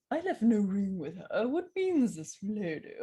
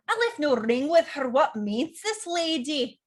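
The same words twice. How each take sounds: First: A stiff English butler. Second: Louder Scottish accent, lines rolled out. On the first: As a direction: say it like a prim butler. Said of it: "archetypes like butler". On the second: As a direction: play it as a proud Scot. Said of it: "This can be accents like Scottish". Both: Shown as a demonstration.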